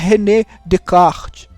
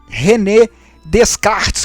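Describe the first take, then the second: First: The S in Descartes is silent. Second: The S in Descartes is pronounced. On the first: The speaker calls it right. "Mas o S ele não é pronunciado" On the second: The speaker calls it wrong. "que o pessoal fala"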